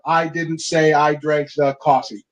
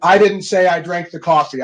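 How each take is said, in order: First: "say" hit hard, slow and low; stress on SAY. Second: "I" punched at the start, rest falling away; stress on I. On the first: Coach showing a second meaning, slow with stress on "say". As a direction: drag out the line and punch "say". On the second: Coach demoing emphasis to chiropractors, weight on "I". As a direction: lean hard on the first "I", then let the sentence drop. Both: Shown as a demonstration. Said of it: "you can literally say it seven different ways".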